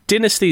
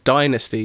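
First: The word is said the British way. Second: The word is said the American way. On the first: "Dynasty is the UK pronunciation" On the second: "Dynasty is the American"

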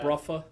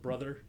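First: The middle consonant is an F sound. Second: The middle consonant is a TH sound. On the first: "T-H is F" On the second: "instead of brother"

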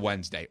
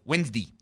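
First: The word ends with an 'ay' sound. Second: The word ends with an 'ee' sound. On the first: "not an A-Y" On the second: "as Dougie would say, Wednesday, because he pronounces the days of the week with an E-E at the end"

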